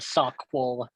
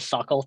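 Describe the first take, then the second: First: It is said with a 'kw' sound. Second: It is said without a 'kw' sound. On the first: The speaker says it this way. "I pronounce the Q" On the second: Other people say it this way. "I know people that say sockle"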